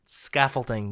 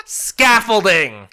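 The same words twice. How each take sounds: First: Said in the usual way. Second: Scaffolding said slowly and loudly, each syllable drawn out; grand announcement. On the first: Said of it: "That's a music ed term". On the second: Shown as a demonstration. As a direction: proclaim Scaffolding slow and loud like a big reveal. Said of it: "I'm gonna say it".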